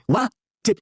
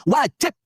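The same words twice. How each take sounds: First: "wajib" very slow, split into "wa" and "jib"; WAJIB diulang perlahan. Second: "wajib" said high and emphatic in one go; penekanan pada WAJIB. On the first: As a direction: stretch "wa", pause, then land "jib". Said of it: "Saya ulang lagi". ("wajib" diulang lambat, dipenggal "wa... jib") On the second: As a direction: punch out "wajib" as the high point. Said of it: "Saya ulang lagi, wajib". ("wajib" diucapkan tinggi dan tegas) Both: Real, not acted.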